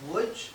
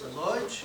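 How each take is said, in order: First: The name is said the Polish way. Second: The name is said the Yiddish way. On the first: This is how people from Poland call the city. "if you hear Lodz and you're from Poland, think Łódź" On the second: This is how the speaker's family called the city.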